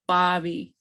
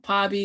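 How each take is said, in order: First: It begins with a sound between B and P. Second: It begins with a plain P sound. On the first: The speaker calls it right. "it's a blend between the two" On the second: The speaker calls it wrong. "it's not Pobby with a P"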